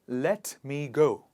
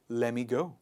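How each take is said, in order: First: Let and me are said as separate words. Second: Let and me are joined into one word. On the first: "let me go changes to" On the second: "changes to let me go"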